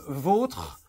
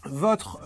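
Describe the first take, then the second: First: "vôtre" with a closed O. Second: "votre" with a slightly open O. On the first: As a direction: say "vôtre" with a rounded, closed O, like "eau". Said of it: "avec un O fermé". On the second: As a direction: say "votre" with the vowel more open, like "or". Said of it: "avec un O un peu ouvert". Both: Shown as a demonstration.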